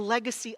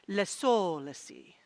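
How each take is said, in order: First: It is said with a plain English accent. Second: It is said with a French accent.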